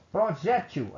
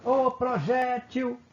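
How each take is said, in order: First: Said in the usual way. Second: Long, high hail with the weight on "jé" in "projétil"; calling out. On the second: Shown as a demonstration. Teacher calls the word to show its strongest syllable, calling out "projétil". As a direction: call out "projétil" high and slow, stretching the middle syllable "jé". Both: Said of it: "Aí eu vou chamar a palavra".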